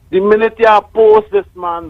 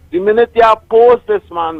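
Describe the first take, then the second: First: Higher, pointed warning; mock warning. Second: Higher, pointed repeat; mock warning again. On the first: Caller warning the host about the prime minister, raised and pointed. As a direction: lean in like a warning. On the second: Caller repeating his warning about the prime minister, raised. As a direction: hit the warning a second time. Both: Real, not acted.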